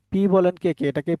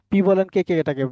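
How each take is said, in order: Both takes have the same delivery.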